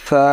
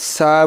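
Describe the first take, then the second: First: The consonant is pronounced soft and gentle. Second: The consonant is pronounced hard and harsh. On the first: The speaker calls it right. "আমরা নরম করে শিখবো এটা" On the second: The speaker calls it wrong. "সা বললে কিন্তু এটা ভুল হবে"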